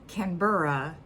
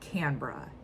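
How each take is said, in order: First: The word is said with every syllable clear. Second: The word is said in a reduced, lazy way. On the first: "it's said Canberra" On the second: "you guys lazily call it"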